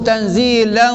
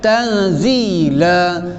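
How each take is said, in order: First: The word ends with an n sound. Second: The word ends with a lengthened a vowel. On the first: The reading continues into the next word. "kalau sambung" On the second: The reading stops at this word. "bila dia berhenti dia jadi mat asli. Dibaca dua harakat"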